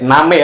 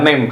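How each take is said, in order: First: It is said with a Japanese pronunciation. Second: It is said with an English pronunciation. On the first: The speaker calls it right. "name ya bacanya" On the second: The speaker calls it wrong. "bukan name"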